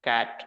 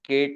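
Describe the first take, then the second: First: The vowel matches the vowel in bag. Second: The vowel differs from the vowel in bag. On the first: The speaker calls it right. "B A G બેગ. P A T પેટ" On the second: The speaker calls it wrong. "કેટ નહીં"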